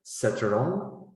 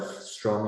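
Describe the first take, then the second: First: "setterong" with vowels split between s, t and r; vowel broken cluster. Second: "strong" said cleanly, s-t-r cluster intact; correct strong. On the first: Teacher showing learners a vowel-broken "setterong". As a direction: pull the cluster apart: "setterong". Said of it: "you can say setterong". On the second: Teacher modelling the standard "strong" for students. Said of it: "instead of strong". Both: Shown as a demonstration.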